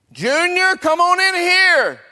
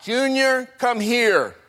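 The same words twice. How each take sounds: First: Very high, loud, stretched holler; mother calling out louder. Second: High, drawn call to another room; mother calling out. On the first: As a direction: holler for the child to come inside. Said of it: "And Mama calls out again". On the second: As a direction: call the child in from play. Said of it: "and she calls out". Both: Acted.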